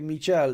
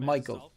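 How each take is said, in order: First: The name is said like French Michel. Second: The name is said like English Michael. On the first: The speaker calls it right. "I do say Michel" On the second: The speaker calls it wrong. "instead of Michael"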